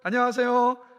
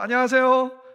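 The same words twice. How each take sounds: The two takes are said the same way.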